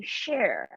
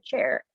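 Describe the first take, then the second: First: "share" with a soft sh for chair; grandma's mispronunciation. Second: Said in the usual way. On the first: Retold or imitated. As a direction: say "share" where chair is meant, as grandma did. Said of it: "My grandma used to say". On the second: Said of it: "every time she said".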